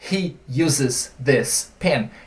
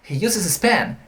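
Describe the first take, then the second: First: The th sound in 'this' is pronounced. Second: The th sound in 'this' is dropped. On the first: "o nativo não fala he uses this pen" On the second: "ele vai esquecer esse T H aqui"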